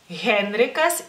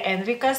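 First: The initial h sound is clearly pronounced. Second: The initial h sound is silent. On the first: The speaker calls it right. "no olviden que tienen que pronunciarla" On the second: The speaker calls it wrong. "no sería Henrikas"

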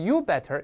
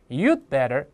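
First: The d is left out completely. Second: The d is held silently before better. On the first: The speaker calls it wrong. "不能是you better" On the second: The speaker calls it right. "这个the 是个失去爆破"

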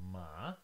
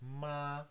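First: The pitch rises from mid to high. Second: The pitch stays high and level throughout. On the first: "The second one starts somewhere in the middle at around 3 and then goes all the way up to 5 or high" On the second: "the first one starts high and goes high all the way"

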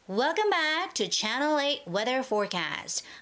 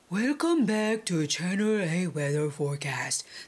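First: The throat is squeezed, giving a pressed voice. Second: The throat is open, like a singer's voice. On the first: The speaker calls it right. "you have to press it" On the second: The speaker calls it wrong. "That's like opening up your vocals"

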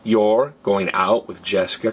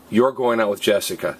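First: The voice rises at the end. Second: The voice falls at the end. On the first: It is a question. "we raise our voice to show we're asking a question. Question" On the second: It is a statement of fact.

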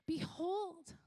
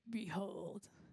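First: It is said in a normal voice. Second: It is said in a booming God voice.

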